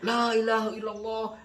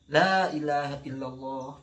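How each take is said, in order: First: The phrase is repeated straight away with no pause. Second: The phrase is said once, then a pause follows. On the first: The dying person is pressed with too many repetitions. The speaker calls it wrong. "Bukan begitu. Salah itu" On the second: The dying person is given time to repeat it. The speaker calls it right. "Harus ada jeda"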